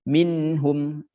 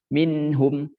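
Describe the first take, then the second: Both takes have the same delivery.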